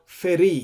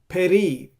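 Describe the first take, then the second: First: The word starts with an f sound. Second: The word starts with a p sound. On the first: "or feri. Here there is no dot" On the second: "It doesn't say peri as in the previous verses"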